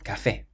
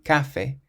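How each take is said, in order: First: The stress is on the last syllable. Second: The stress is on the first syllable. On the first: The speaker calls it right. "has an accent on the E, so ... but café" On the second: The speaker calls it wrong. "we don't say café"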